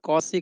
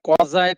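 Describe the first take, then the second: First: It has an au vowel, an s sound, and ends in ee. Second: It has an au vowel, a z sound, and ends in eye. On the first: "कोई कौसी कहता है" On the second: "कौजाई कहता है"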